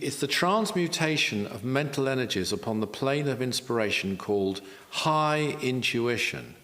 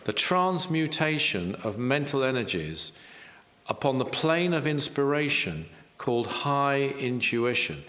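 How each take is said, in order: First: It is said at normal speed. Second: It is said slowly.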